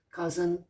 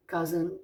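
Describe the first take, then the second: No difference in how they are said.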